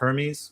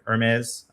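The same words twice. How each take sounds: First: The name is pronounced the English way. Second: The name is pronounced the French way.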